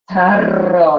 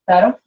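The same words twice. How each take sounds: First: The R is rolled long and drawn out. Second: The R has only a slight, quick roll. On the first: The speaker calls it wrong. "That's like over, way over emphasized" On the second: The speaker calls it right. "there's a slight roll... it's quick"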